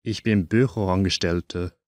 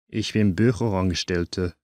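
The two takes are said the same way.

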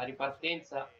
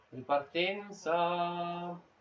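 First: Said in the usual way. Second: Very slow, stretched commentator call; drawn-out call. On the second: Real, not acted. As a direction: drag the word out like a broadcaster.

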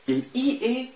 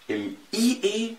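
No difference in how they are said.

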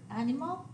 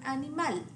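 First: Animal in English, AN stressed, ending rising; English pronunciation. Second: Animal in Spanish, stress on final MAL, falling; Spanish animal with pure vowels, end-stressed; Spanish pronunciation. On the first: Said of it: "The English word animal". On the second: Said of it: "the Spanish word animal". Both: Shown as a demonstration.

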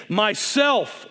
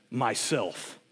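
First: Louder and higher, ringing; loud and clear. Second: Low and soft, heavy; very deep and low. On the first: The lion answering the boy again, loud and clear. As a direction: proclaim it clearly. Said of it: "loud and clear". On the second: The lion answering the boy, very deep and low. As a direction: speak it from deep in the chest. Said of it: "very deep and low so that the earth shook". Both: A narrator's reading.

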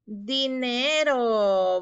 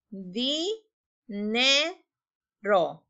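First: "Dinero" drawn out very slowly and louder; stretched slowly. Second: "Di, ne, ro" as three separate beats; syllables apart. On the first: Teacher reveals the word "Dinero" to pupils, very slowly. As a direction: stretch "Dinero" long and clear. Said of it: "¿Cuál es la palabra?". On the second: Teacher blends "Di, ne, ro" for the class, syllable by syllable. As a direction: count out "Di, ne, ro" syllable by syllable. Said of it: "combinarlas juntas". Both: Shown as a demonstration.

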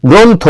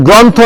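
First: গ্রন্থ with a closed "o", "grontho"; correct pronunciation demo. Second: গ্রন্থ with an open "aw", "grawntho"; wrong pronunciation demo. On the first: Teacher asking for proper pronunciation, গ্রন্থ with closed "o". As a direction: say গ্রন্থ as "gron-tho", rounded o. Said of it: "শুদ্ধ উচ্চারণটা করো". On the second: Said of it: "এটা কি গ্রন্থ না". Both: Shown as a demonstration.

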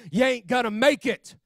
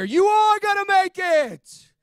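First: Higher-pitched mock devil taunt; raised, insistent imitation of the devil; devil's taunt. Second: Slow, high, booming shout; soaring shouted promise, every word stretched; God's voice proclaimed. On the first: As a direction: hammer it out as the accusing devil. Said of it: "the devil had been lying to me". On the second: Retold or imitated. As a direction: belt it out as a triumphant word from God. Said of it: "I heard that still small voice".

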